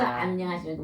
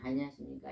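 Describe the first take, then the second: First: The greeting is said warmly with a smile. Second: The greeting is said plainly without smiling. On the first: "웃으면서" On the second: "그냥"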